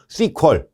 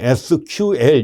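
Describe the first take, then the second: First: It is said as one two-syllable word. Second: It is spelled out as three separate letters. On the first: This is how professionals say it among themselves. "현장에서 이제 전문가들끼리 발음할 때 커뮤니케이션 할 때는 씨퀄 이렇게 많이 써요" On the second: This is the common everyday reading. "우리는 보통 에스큐엘 이렇게 발음하는데 물론 맞습니다"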